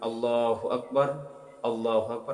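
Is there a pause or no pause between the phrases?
pause. There is a stop between the phrases.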